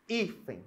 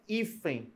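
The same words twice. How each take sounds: First: "hífen" slowly, first syllable drawn out; stress on HÍ. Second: Said in the usual way. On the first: Shown as a demonstration. Teacher showing the tonic syllable, stressed "hí" in "hífen". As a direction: hold "hí" in "hífen", then detach "fen". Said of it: "a sílaba tônica é a penúltima".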